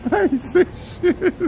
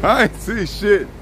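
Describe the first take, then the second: First: Laughing. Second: Said in the usual way. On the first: Real, not acted. Repeats denial laughing.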